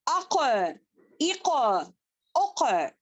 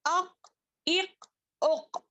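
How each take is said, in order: First: अक इक उक with the क bouncing back; echoing letter demo. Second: अक इक उक with no echo on the क; wrong way demo. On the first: Teacher showing the right echoing reading. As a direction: let the क of अक echo. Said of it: "पढ़े मेरे साथ". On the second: Teacher showing students the wrong reading. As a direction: show the flat wrong अक इक उक. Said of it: "इस तरीके से नहीं पढ़ना". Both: Shown as a demonstration.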